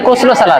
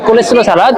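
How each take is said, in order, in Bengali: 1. শব্দটি ছোট 'koslo' হিসেবে বলা হয়। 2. শব্দটি লম্বা 'koleslo' হিসেবে বলা হয়। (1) "অনেকজন বলে কোসলো সালাদ" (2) "রিয়েল উচ্চারণটা হলো কোলেস্লো সালাদ"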